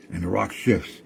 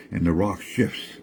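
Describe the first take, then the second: No difference in how they are said.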